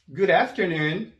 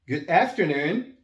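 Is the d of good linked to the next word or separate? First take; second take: linked; separate. First: The d runs straight into the next word. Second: The d and the next word are separate.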